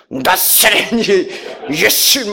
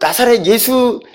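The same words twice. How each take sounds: First: It is said in an intense, exaggerated way. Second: It is said in a plain, ordinary way. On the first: "뭐 이렇게 나가라! 이렇게 하셔요" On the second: "이렇게 발음도 이렇게 안 하시죠?"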